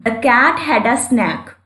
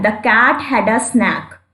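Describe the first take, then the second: First: The cat had a snack, every word stretched; slow example reading again. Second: Each word of The cat had a snack drawn out; slow example reading. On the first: Teacher rereading the example so students spot the vowel. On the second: Teacher reading the example sentence slowly for students. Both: Shown as a demonstration.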